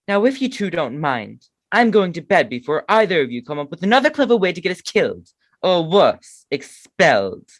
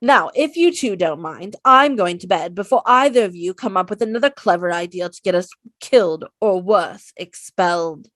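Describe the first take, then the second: First: A hint of a prim schoolgirl; lightly voiced Hermione scolding; Hermione impression. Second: Bossy, louder Hermione scolding; Hermione impression. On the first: Man voicing Hermione scolding the boys, lightly prim. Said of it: "okay, my turn". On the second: Hermione scolding the boys before bed, prim exasperated. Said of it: "my Hermione quote".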